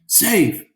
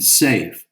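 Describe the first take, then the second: First: Safe yelled much higher and louder; announcer yelling. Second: Said in the usual way. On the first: Acted. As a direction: call Safe as the runner crosses home. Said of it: "the announcer yelled". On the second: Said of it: "from the radio".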